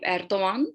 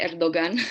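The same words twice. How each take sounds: First: The g is soft, barely pronounced. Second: The g is pronounced as a hard g. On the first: The speaker calls it right. "We say the G, soft G" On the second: The speaker calls it wrong. "We don't say Erdogan"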